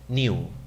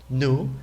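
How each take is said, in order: First: The word is said in a British accent. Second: The word is said in an American accent. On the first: "el británico dice new" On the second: "El americano aquí lo pronuncia new"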